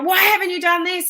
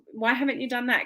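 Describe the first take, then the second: First: It is yelled in an angry tone. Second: It is said in a calm, nice tone.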